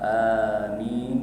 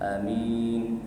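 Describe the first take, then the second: First: The first vowel is held for two counts. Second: The first vowel is clipped very short. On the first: It keeps the intended meaning. The speaker calls it right. "dua harakat" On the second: It changes the meaning. The speaker calls it wrong. "a tu tak ada harakat"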